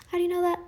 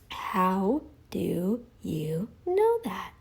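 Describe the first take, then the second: First: Higher challenging question. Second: A slow, breathy taunt; slow taunting whisper. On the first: Vlogger pressing absent critic Bart K, higher challenge. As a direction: ask it higher, like a sharp challenge. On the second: Vlogger taunting absent critic Bart K, slow whisper. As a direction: whisper it very slowly, drawn out. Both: Acted.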